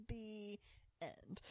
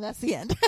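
First: Very soft, drawn-out storybook close; mock-solemn ending. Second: Said in the usual way. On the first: Co-host closing the recap, mock-solemn. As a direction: say it hushed, pausing before "end".

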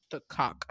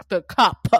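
First: Said in the usual way. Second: "cop" punched louder, with a hard final p; emphatic self-correction. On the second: Real, not acted. Narrator fixing a slip of the tongue, "cop" stressed emphatically. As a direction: hit "cop" hard and loud, popping the p.

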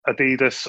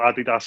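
First: Adidas said the speaker's own way; first of two ways of saying Adidas; alternative pronunciation. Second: Adidas said the other way; second, contrasting way of saying Adidas; alternative pronunciation. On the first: Host offering one pronunciation of Adidas to his guest, alternative pronunciation. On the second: Host echoing his guest's brand name, alternative pronunciation of Adidas. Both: Shown as a demonstration. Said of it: "however you pronounce it".

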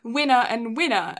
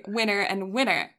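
First: Winner and winner in an English accent. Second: Winner and winner in an American accent; American-accented "winner", R sounded at the end. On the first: Friend contrasting English accent with American for co-host, English accent. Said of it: "can't say that in an English accent". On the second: Friend contrasting American accent with English for co-host, American accent. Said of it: "touch of American accent". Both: Shown as a demonstration.

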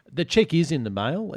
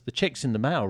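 First: "check" hit hard, ending on a questioning rise; stress on check. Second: Said in the usual way. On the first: Shown as a demonstration. Host nudging the guys about payment, leaning on "check". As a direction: lean on "check" as a pointed reminder.

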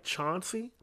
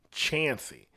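First: CHAUNCEY with an open "ah" vowel; as-spelled pronunciation. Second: CHANCEY with the flat a of "chance"; local pronunciation. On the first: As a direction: say "Chauncey" as it looks, CHAHN-see. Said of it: "spelled like it looks like". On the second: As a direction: say "Chancey" as CHAN-see, drawn out. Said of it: "they pronounce it". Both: Shown as a demonstration.

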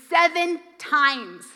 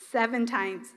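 First: Seven times said slowly, leaning on Seven; slow emphatic Seven times; emphatic count. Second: Seven times repeated softer, falling away; a hushed repeat of Seven times; soft echo. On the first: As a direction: stretch out Seven times for weight. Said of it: "repeated for emphasis". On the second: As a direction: let Seven times drop into a quiet echo. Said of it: "quiet echo of the count". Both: Shown as a demonstration.

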